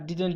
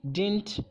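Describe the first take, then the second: First: Didn't in two syllables, "did-ent"; didn't said fully as "did-unt"; full pronunciation. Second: Didn't squeezed into one syllable, "dint"; clipped-down "dint" for didn't; shortened pronunciation. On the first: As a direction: keep the middle d in didn't. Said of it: "और दूसरा didn't भी". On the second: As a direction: say didn't as "dint", dropping the middle d. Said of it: "इसकी दो pronunciation". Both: Shown as a demonstration.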